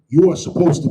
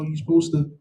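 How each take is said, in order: First: It is said firmly, with strong authority. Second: It is said hesitantly, without conviction. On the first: The rule is not up for debate. The speaker calls it right. "You say that with all authority" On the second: The rule sounds optional. The speaker calls it wrong. "You don't say, well, yeah, you know"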